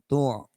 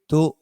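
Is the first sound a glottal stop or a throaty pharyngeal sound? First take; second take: pharyngeal; glottal stop. First: It begins with a throaty pharyngeal sound. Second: It begins with a strong glottal stop. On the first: The speaker calls it wrong. "bukan tu" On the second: The speaker calls it right. "ini hamzah bukan ain ... kuat"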